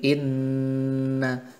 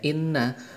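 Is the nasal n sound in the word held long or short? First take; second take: long; short. First: The nasal n sound is held long. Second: The nasal n sound is short. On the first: The speaker calls it right. "tetapi inna, lebih panjang lagi" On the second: The speaker calls it wrong. "kita membacanya tidak hanya inna"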